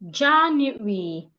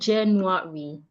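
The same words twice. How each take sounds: First: The word begins with a j sound. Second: The word does not begin with a j sound. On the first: The speaker calls it right. "for that sound, I can have the word January" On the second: The speaker calls it wrong. "It is not January"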